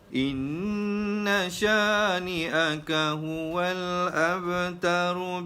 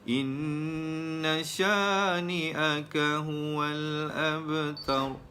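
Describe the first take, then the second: First: The last word ends on a vowel, flowing onward. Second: The last word ends on a consonant, then stops. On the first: The recitation continues into the next part without stopping. "tanpa kita berhenti pada akhir ayat" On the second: The recitation stops at the end of the verse.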